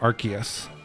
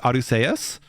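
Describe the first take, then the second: First: The name does not begin with 'arse'. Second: The name begins with the sound 'arse'. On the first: This form avoids a rude word in English. "the English dubs all pronounce it Arceus" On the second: This is the original form of the name. "the Japanese name is Arceus"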